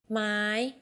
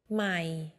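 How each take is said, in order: First: The word is said on a high tone. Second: The word is said on a low tone. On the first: It is a question word. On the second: It means new.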